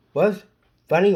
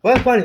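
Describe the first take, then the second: First: Said in the usual way. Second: Shouted question; loud demand. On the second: Real, not acted. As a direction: shout what's funny. Demanding loudly.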